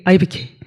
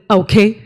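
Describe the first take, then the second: First: The words are mumbled together inside the mouth. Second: The words are spoken clearly and distinctly. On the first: The speaker calls it wrong. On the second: The speaker calls it right.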